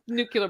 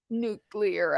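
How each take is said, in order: First: The word is said like 'nucular'. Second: The word is said like 'new-clear'. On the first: The speaker calls it wrong. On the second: The speaker calls it right.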